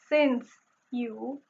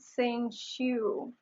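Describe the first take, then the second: First: The final consonant of since is a plain s. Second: The final consonant of since sounds like sh.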